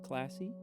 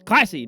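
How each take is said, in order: First: The word is said in a flat, plain way. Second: The word is said with excited, exclamatory energy. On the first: The speaker calls it wrong. "not classy" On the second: The speaker calls it right. "it actually is classy, because it has the exclamation point"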